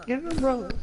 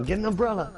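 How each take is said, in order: First: Pitched way up, cartoonish; high squeaky repeat. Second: Said in the usual way. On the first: Repeating joke, higher take.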